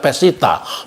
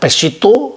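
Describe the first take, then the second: First: The word ends with an a vowel. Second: The word ends with an o vowel. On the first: "kadang-kadang dibaca Pesita" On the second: "Pesito kadang-kadang dibaca Pesita"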